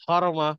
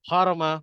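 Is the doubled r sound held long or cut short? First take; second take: short; short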